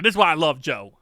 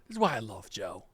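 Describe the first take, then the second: First: It is said noticeably louder than before. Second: It is said at ordinary speaking volume.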